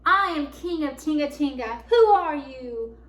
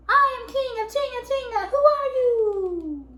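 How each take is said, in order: First: Loud, bold proclamation, slowing on the question; brave big voice. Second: Very high, loud echoing call; even bigger voice. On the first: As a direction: answer the big voice boldly, full force. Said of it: "answered the big voice". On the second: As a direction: throw it back huge, stretching the question. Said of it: "an even bigger voice". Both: A narrator's reading.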